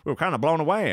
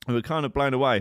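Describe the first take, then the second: First: It is said in an attempted Canadian accent. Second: It is said in the speaker's normal accent. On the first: "that's not a Canadian accent" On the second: "I just can't even bother"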